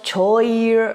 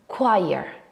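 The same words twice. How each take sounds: First: It does not start like the word 'quiet'. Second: It starts like the word 'quiet'. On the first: The speaker calls it wrong. "read it kind of choir or something like that. But that's not correct" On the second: The speaker calls it right. "The right way to pronounce this word is choir"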